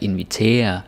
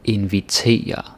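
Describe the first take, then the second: First: The ending sounds like English 'tear', one syllable. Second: The ending is said as two syllables, 'e-ja'. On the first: The speaker calls it wrong. "in English you might be tempted to say like invitere or tear or something like that" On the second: The speaker calls it right. "it's eja. Right? It's two syllables"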